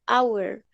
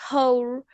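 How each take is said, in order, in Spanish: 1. La h al inicio es muda. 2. La h al inicio se pronuncia. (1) "suena como si fuera una vocal" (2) "hora no se dice hour"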